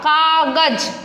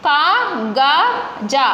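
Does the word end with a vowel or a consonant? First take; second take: consonant; vowel. First: The word ends on a bare z consonant. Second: The word ends with a full final vowel.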